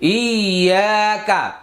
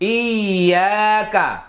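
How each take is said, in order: No difference in how they are said.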